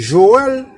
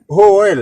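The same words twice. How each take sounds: First: The name begins with a soft zh sound. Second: The name begins with a harsh h sound. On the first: This is how it is said in Haiti. "Là en Haïti, vous entendez moun dit Joël" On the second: This is how it is said here. "mais ici tu pas dit Joël, non, yo dit Joël"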